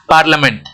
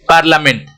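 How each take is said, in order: The two takes are said the same way.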